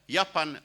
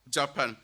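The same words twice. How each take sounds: First: The word starts with a Y sound. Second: The word starts with a J sound. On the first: "In Standard Afrikaans, you can hear yeah, Japan, right with the English Y" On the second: "the way that J is pronounced in the Malay language"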